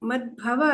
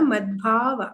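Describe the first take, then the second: First: The second syllable has a short vowel. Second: The second syllable has a long vowel. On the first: The speaker calls it wrong. "ಮದ್ಭವ ಅಲ್ಲ" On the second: The speaker calls it right. "ದಾ ದೀರ್ಘ ಇದೆ"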